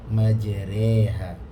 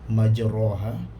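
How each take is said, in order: First: The vowel after r sounds like an e. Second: The vowel after r sounds like an open a. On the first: The speaker calls it right. "tetapi tengah-tengah condong majreha" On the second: The speaker calls it wrong. "Tidak menjadi ra majraha"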